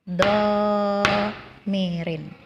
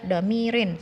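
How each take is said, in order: First: The first vowel is held for two beats. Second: The first vowel is cut short. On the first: The speaker calls it right. "Tapi domirin" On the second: The speaker calls it wrong. "jangan dibaca domirin, salah"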